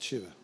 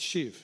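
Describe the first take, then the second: First: The name ends with an added vowel sound. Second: The name ends on the consonant v. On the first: The speaker calls it wrong. "not Shiva" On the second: The speaker calls it right. "It's Shiv"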